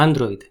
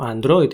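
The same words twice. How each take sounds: First: "Android" stressed on AN; acento inicial. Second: "Android" stressed on -droid; pronunciación española. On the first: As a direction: hit the first syllable of "Android". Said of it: "sería de esa forma". ("Android" con acento en la primera a) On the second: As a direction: say "Android" with weight at the end. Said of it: "como decimos aquí". ("Android" con acento en "droid") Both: Shown as a demonstration.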